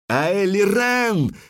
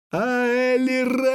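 First: High, drawn-out battle cry; loud cry. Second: Very high, long-held wail of the name; heartrending cry. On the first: Elf with raised sword fighting her hesitation, crying out. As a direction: call the name long and high. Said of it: "крикнула белка громко". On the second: Elf struck down, sinking to her knees, heartrending cry. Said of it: "душераздирающе крикнула эльфка". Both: A narrator's reading.

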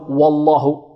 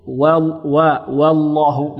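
First: "والله" بواو مفخمة غلطًا; املأ الفم بواو "والله"; تفخيم الواو. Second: "والله" ببطء بواو مرققة; افصل الواو الرقيقة عن لام "والله" المفخمة; ترقيق الواو. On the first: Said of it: "لا نفخم، نقول". (فخّم "والله" من أولها) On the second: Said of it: "نرقق الواو". (رقق أول "والله" وغلّظ لامها) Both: Shown as a demonstration.

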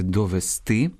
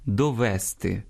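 First: "довести" stressed on "сти"; correct final stress. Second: "довести" stressed on "ве"; dialectal stress. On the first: Teacher correcting the error, "довести" stressed on "сти". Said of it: "а правильно сказати". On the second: Teacher quoting a dialect error, "довести" stressed on "ве". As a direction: misplace the stress onto "ве" in "довести". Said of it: "діалектним впливом". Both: Shown as a demonstration.

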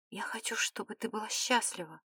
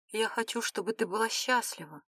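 First: Unvoiced, much softer whisper. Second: Soft, voiced near-whisper; murmured whisper. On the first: Philip wishes her happiness, in a true whisper. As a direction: whisper it under your breath. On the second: Philip wishes her happiness, softly half-whispered. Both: A narrator's reading. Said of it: "прошептал".

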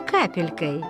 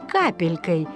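Both takes have the same delivery.

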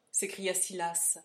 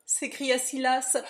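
First: Said in the usual way. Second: Louder, higher, slow narration tag; excited narration. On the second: A narrator's reading. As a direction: carry the alarm into the tag.

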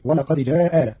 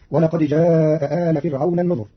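First: جاء آل with the first hamza dropped, جا آل; Qalun reading. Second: جاء آل with both hamzas, جاءَ أ آل; teacher reads جاء آل keeping the first hamza; standard reading. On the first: Teacher shows Qalun's reading to learners, first hamza dropped. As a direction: read جاء آل as جا آل with a short madd. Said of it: "بإسقاط الهمزة الأولى". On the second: Teacher gives the usual reading before Qalun's, both hamzas kept. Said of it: "قرأ قالون كلمتي جاء آل". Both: Shown as a demonstration.

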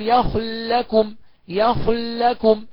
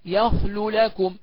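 First: يخل لكم joined on one long held l; very slow يخل لكم, doubled l; merged lam. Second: يخلو لكم with long oo between two separate l sounds; clear unmerged lam. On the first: Teacher demonstrates merging, long held l in يخل لكم. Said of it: "أدي الإدغام". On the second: Teacher shows the clear reading, يخلو لكم unmerged. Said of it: "واللي يظهر يقول إيه؟". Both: Shown as a demonstration.

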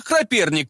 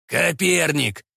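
First: "Коперник" garbled as "Краперник"; mispronounced name. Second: "Коперник" said cleanly, ka-PER-nik; corrected pronunciation. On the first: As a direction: slip an r into "Коперник": kra-PER-nik. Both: A narrator's reading. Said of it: "почему-то поправил Тайницкий".

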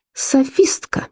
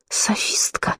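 First: Hissed in disgust; whispered fury. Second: Sharp furious hiss, very soft; whispered fury. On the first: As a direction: spit it out in a furious hiss. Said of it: "прошипела она". (яростный шёпот) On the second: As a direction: hiss it like striking a match. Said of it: "прошипела она, словно чиркнула спичкой". (шипящий яростный шёпот) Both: A narrator's reading.

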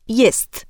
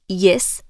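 First: "jest" with the final t clearly sounded; full ending. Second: "jes" with the final t dropped; clipped ending. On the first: Diction coach showing careful speech, final t pronounced in "jest". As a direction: finish "jest" on an audible t. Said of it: "powiedzieć „jest". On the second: Diction coach showing listeners a lazy ending, dropped final t in "jes". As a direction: say "jes", swallowing the last consonant. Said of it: "próbuję zamiast „jes” powiedzieć „jest". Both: Shown as a demonstration.

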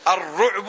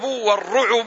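First: الرعب said ar-ru'bu, ayn without a vowel; الرعب as ru'-bu after the article; sukun on the ayn. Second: والرعب said war-ru'ubu, u after the ayn; والرعب as ru-'u-bu after the article; damma on the ayn. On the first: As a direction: run the ayn of الرعب straight into the b. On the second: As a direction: add a short u on the ayn of والرعب. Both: Shown as a demonstration. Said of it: "وهما لغتان في الكلمة".

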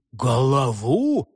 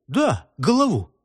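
First: "Голову" drawn out slowly as a question; questioning echo. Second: "Да, голову" with falling, settled tune; firm confirmation. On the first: Lad queries the target, "Голову" as a slow questioning echo. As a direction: stretch "Голову" into a puzzled query. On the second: Lad confirms the target, "голову" said with a decided fall. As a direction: confirm "голову" as a statement that drops at the end. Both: A narrator's reading.

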